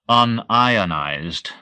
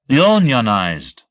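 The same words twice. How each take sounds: First: The stress is on the second syllable. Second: The stress is on the first syllable. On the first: A substance that does not break into ions. "I accent the second syllable" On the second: A workforce organized into a labor union. "Mario says it's accented on the first syllable"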